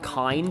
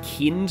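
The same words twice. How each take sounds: First: It is said like the English word. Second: It is said with the German vowel. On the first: The speaker calls it wrong. "not kind, even though it looks the same as the English word" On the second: The speaker calls it right. "it's pronounced kind"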